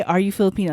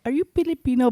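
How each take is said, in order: First: Said in the usual way. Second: Higher-pitched Filipino-accented question. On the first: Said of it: "I was going to say". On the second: Shown as a demonstration. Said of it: "I spoke in an accent".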